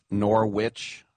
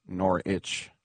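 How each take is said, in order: First: Norwich said as "nor-witch"; pronounced as spelled. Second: Norwich said as "nor-itch"; silent W. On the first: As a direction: sound the W in Norwich. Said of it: "It's, looks like Norwich". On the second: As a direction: drop the W from Norwich, ending in "itch". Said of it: "looks like Norwich, Norwich". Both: Shown as a demonstration.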